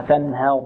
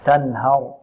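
First: تنهر with the ه leaning to "he"; over-thin the vowel after ه in تنهر toward "e"; lower-pitched تنهر said as "tan-her"; tilted fatha. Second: Slow, lower تنهر with open "ha"; drawn-out تنهر as "tan-har"; untilted fatha. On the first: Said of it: "نحذر من تقليل الفتحة". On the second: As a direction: keep the vowel after ه in تنهر a pure "a". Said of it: "لا". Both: Shown as a demonstration.

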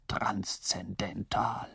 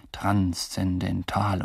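First: Slow whispered "transzendental" fading out. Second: Slow, solemn "Transzendental" drawn out syllable by syllable. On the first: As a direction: breathe "transzendental" almost silently. The clever one repeats it. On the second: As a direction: pronounce "Transzendental" like a grave verdict. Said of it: "mit so feierlicher Stimme". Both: Retold or imitated.

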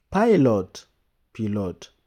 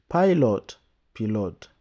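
The two takes are said the same way.

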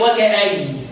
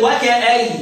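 First: وكأين stopped as وكأي on the ياء; Abu Amr's reading. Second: وكأي stopped on ياء without nun; Abu Amr's reading. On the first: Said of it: "يقول إيه". (وكأين بالوقف على الياء) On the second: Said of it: "سيدنا أبو عمرو يقول إيه". (وكأي بالوقف على الياء) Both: Shown as a demonstration.

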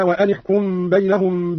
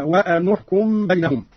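First: Said in the usual way. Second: وأن with u on the ن before احكم; damma on nun. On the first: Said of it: "قرأ قالون بضم النون". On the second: Shown as a demonstration. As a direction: link وأن احكم as "wa-anu-hkum". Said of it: "بضم النون أولى الساكنين هكذا".

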